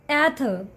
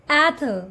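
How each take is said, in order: No difference in how they are said.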